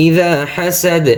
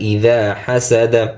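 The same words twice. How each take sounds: First: ইদা হাসাদ chanted higher, closed on d with no a; stopped ending. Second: ইদা হাসাদা spoken through to an open a; full final vowel. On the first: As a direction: stop on the d of হাসাদ in a raised chant. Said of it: "অকফ করলে জবর উচ্চারণ কি হবে না". (হাসাদ-এ থেমে শেষের জবর বাদ) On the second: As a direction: voice the last a of হাসাদা. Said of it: "জবর উচ্চারণ কি হবে না". (হাসাদা-র শেষে জবর উচ্চারণ) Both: Shown as a demonstration.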